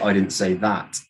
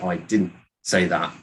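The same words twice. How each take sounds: First: The word that carries the main stress. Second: The word didn't carries the main stress. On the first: Something different was said. "you said something else" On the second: It simply was not said. "you're just saying that I didn't say it"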